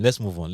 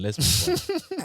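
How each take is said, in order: First: Said in the usual way. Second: Much higher and slower, comic squeak; squeaky high repeat. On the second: Shown as a demonstration.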